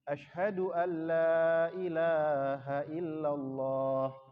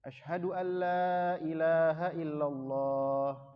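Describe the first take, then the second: Both takes have the same delivery.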